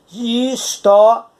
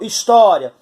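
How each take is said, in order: First: "história" drawn out slowly, syllable by syllable, rising at the end; slow syllable demo. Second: Said in the usual way. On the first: Shown as a demonstration. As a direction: stretch "história" slowly so the ditongo "ria" stands out. ("história" dita bem devagar, sílaba por sílaba) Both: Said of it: "Esse ria é uma sílaba".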